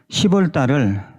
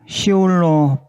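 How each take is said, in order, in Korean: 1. 첫 음절은 p 소리로 끝나요. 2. 첫 음절은 p 소리 없이 끝나요.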